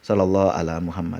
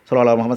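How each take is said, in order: First: It is said at a moderate speed. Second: It is said very fast and rushed.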